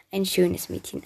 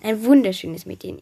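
First: Said in the usual way. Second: "wunderschönes" punched louder with a pitch swell; stress on wunderschönes. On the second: A narrator's reading. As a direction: lean admiringly into "wunderschönes". Repeat heightens the praise. (starke Betonung auf „wunderschönes“)

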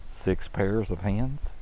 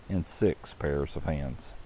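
First: Slow, softer, rising up on hands; incredulous question. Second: Slow, low and softer, falling on hands; lowered flat statement. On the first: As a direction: ask it back in disbelief, lifting hands. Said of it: "The angel shook her head slowly and said". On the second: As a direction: set it down as a plain fact, trailing off on hands. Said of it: "The angel shook her head slowly". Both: Acted.

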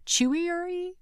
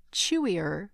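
First: Chewier-y with an extra "ee" ending, pitched high as a question; unsure pronunciation. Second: Said in the usual way. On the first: Real, not acted. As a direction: try out "chewier-y?" much higher, unsure of the word. Trying out a stumbled word.

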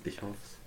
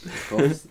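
First: Unvoiced, much softer whisper of ich hoff's. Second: Said in the usual way. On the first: Shown as a demonstration.

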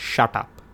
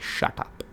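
First: Said in the usual way. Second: Breathy whisper, no voice at all; whispered shut up. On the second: Retold or imitated. Friend whispers shut up in disbelief, whispered. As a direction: hiss it under your breath in disbelief. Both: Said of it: "I was like".

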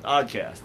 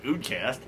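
First: Said in the usual way. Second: OODCAST with a long oo at the start; misspelled oddcast. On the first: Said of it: "wait, not oodcast". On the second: Shown as a demonstration. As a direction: say OODCAST, first vowel as in food. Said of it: "I just gotta spell oodcast".

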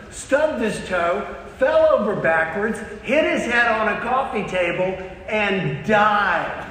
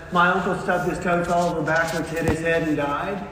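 First: Dramatic one-upping. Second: Understated, run-on summary of the tragedy; matter-of-fact retelling. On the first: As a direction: top their story, building to the fatal ending. One-upping with an uncle's worse story. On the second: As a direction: run through the misfortunes without drama. Same story retold in reverse order. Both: Acted.

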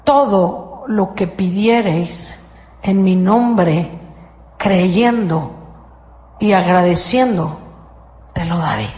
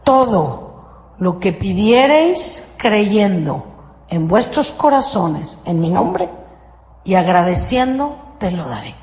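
First: Slow, measured scripture reading; solemn scripture quote. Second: Slow, deliberate recitation with pauses; solemn scripture quote. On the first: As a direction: intone it slowly like holy writ. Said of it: "Fíjate cómo funciona". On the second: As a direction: lay out each word of the formula slowly. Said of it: "Otra vez, aquí va la fórmula". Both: Shown as a demonstration.

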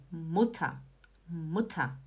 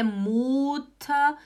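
First: "muta" with a short U, low and soft; short clipped U in "muta", falling; correct pronunciation. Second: "muta" with a long drawn-out U, MOOO-ta; wrong pronunciation. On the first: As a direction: model "muta" quick-vowelled, MUT-ta. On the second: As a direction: stretch the U of "muta" as a mistake. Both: Shown as a demonstration. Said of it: "Não é muta".

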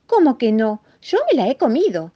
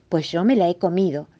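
First: High, loud distressed mouse; anguished insistence. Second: Said in the usual way. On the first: Acted. Mouse insists to the rabbit that he ate it, anguished insistence. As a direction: protest in a small anguished voice. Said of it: "respondió el ratoncito bastante angustiado". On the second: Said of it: "respondió el ratoncito".

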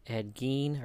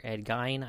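First: Gein said like "geen", long ee; "Gein" with a long ee vowel; alternative pronunciation. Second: Gein said like "gine", long i; "Gein" with an eye vowel; alternative pronunciation. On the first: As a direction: say "Gein" to rhyme with "keen". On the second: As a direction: say "Gein" to rhyme with "fine". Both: Shown as a demonstration. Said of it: "not sure how you pronounce that guy's name".

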